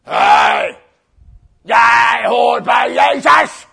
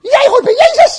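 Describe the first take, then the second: First: Slow, loud bellowing soldier; drawn-out mock soldier roar; big soldier. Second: Put-on very high, loud child's squeal; mock child shriek; tiny girl. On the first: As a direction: bellow the accusation like a hulking guard. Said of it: "komt er een grote soldaat". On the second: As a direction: accuse in a piercing little-girl voice. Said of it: "Komt er een nog kleiner meisje".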